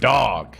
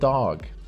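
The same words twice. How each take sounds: First: It has a drawn-out 'dawg' vowel. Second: It has the ordinary 'dog' vowel. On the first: A person with a relentless, winning mindset is meant. "Dog is D A W G" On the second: The pet animal is meant. "D O G is that friendly little animal"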